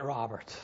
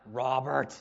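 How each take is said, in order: First: Low, soft, let-down calling of a name; disappointed. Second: God calling. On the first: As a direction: say the name softly, sinking with disappointment. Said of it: "Will it be disappointment?". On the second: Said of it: "what will it sound like when he calls". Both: Acted.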